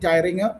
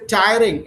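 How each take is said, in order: First: The word ends with an added 'uh' vowel. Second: The word ends cleanly with no added vowel. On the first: The speaker calls it wrong. "instead of saying tiring" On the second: The speaker calls it right. "you should say tiring"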